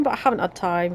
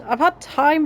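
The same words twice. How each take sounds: First: Said in the usual way. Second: Had lifted high; I've had time, with "had" leaping up high in pitch; stress on had. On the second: Shown as a demonstration. Gamer hinting at a subtle difference, stressing "had". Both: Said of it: "if you know what I mean".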